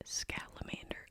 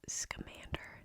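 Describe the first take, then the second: First: The name is said with an added 'l' sound. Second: The name is said without an 'l' sound. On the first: The speaker calls it wrong. "This whole time I pronounced it Scalamander, like a salamander" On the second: The speaker calls it right. "I just realized his name is Scamander"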